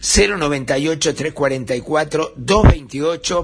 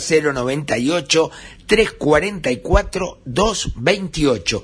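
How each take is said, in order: First: The number is said at normal speed. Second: The number is said more slowly.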